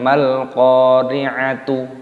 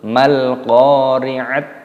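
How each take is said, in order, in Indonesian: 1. Kata itu berakhir dengan bunyi t dan vokal u. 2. Kata itu berakhir dengan bunyi t tanpa vokal. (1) "bukan mal-qari'atu" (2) "ataupun mal-qari'at"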